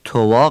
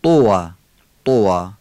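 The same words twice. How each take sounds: First: توا as a loose "towa"; wrong light t. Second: توا with a thick Arabic ط; emphatic "tuwaa", rounded and heavy; heavy, full from throat. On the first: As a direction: say توا with a plain Persian t and short first vowel. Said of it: "توا غلطه". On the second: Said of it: "درشت و پر از گلو". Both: Shown as a demonstration.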